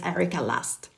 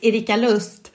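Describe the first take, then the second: First: The name is said with an English pronunciation. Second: The name is said with a Swedish pronunciation.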